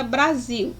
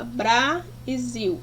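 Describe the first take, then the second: First: Said in the usual way. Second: "bra e zil" slowly, as two separate syllables; "bra" held, then "zil" apart. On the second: Shown as a demonstration. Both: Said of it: "eu tenho a separação de sílaba".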